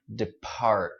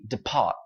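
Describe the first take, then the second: First: The R sound is strongly pronounced. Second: The R sound is dropped, sounding light. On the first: "anh Mỹ phải nói rất là mạnh" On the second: "in British English, this would be depart"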